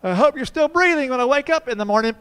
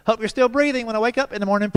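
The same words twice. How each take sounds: First: Put-on much higher, louder eerie child; spooky little boy at bedtime; creepy kid voice. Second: Higher, louder, fast menacing payback; dad's playful revenge; mock threat. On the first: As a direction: deliver it like a horror-movie child. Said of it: "He looks up at me and goes". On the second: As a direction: turn the kid's creepy line back on him. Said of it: "I said".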